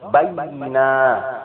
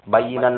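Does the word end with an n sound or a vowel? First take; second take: vowel; n sound. First: The word ends on a vowel without n. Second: The word ends with an n sound. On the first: The word is read at a stop. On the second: The word is read in running speech.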